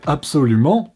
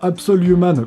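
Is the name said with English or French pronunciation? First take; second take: French; English. First: It is said with a French pronunciation. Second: It is said with an English-style pronunciation. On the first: "qu'on peut prononcer en français absolument" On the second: "la double prononciation Absol Human"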